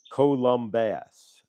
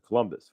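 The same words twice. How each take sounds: First: "Columbus" stretched slowly into Co-lum-baaas; playful mispronunciation. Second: Said in the usual way. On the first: Pretend. Host names the Ohio city, "Columbus" playfully stretched as Co-lum-baaas. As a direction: draw out "Columbus" syllable by syllable, ending on a long "bass".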